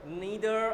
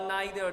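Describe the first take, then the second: First: "Neither" with a long EE in the first syllable; NEE-ther pronunciation. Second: "neither" with an EYE sound in the first syllable; NIGH-ther pronunciation. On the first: Teacher offering the class one of two pronunciations, "Neither" as NEE-ther. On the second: Teacher offering the class the other pronunciation, "neither" as NIGH-ther. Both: Shown as a demonstration. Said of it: "Neither or neither".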